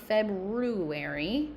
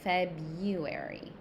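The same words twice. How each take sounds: First: The first R is pronounced clearly. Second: The first R is left silent. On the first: The speaker calls it wrong. "It's not February, that R is silent" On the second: The speaker calls it right. "that R is silent"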